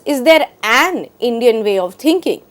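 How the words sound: The stress falls on the word an. "emphasizes an"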